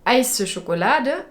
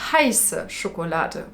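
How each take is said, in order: First: The H at the start is left out. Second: The H at the start is clearly pronounced. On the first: It sounds like asking for an iced chocolate. The speaker calls it wrong. "ils ont du mal à prononcer le H en allemand, lui, il a dit heiße Schokolade" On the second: It asks for a hot chocolate. The speaker calls it right. "le mot pour chocolat chaud en allemand, c'est heiße Schokolade"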